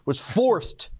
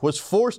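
First: The words are said with heavy, drawn-out emphasis. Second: The words are said plainly without extra emphasis.

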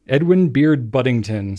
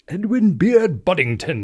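First: It is said in an ordinary American accent. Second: It is said in a put-on British accent.

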